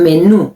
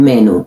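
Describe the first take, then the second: First: "menú" stressed as me-NU; "menú" with a long, stressed -nú; accent on last syllable. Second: "menú" stressed as MEN-u; "menú" with English-like stress, ME-nu; wrong first-syllable stress. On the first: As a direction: land firmly on the final syllable of "menú". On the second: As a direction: put the weight on the start of "menú". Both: Shown as a demonstration. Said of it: "no es un menú".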